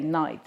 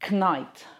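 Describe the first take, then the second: First: The word starts directly with the n sound. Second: The word starts with a k before the n. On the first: This is the present-day way of saying it. "we now say knight" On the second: This is the older way of saying it. "instead of saying knight"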